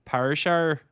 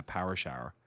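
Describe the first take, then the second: First: "Power shower" with Northern Irish vowels, louder and higher; "Power shower" as "perr sherr", Belfast vowels; Northern Irish accent. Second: Said in the usual way. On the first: Shown as a demonstration. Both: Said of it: "thing to say in, uh, a Northern Irish accent is".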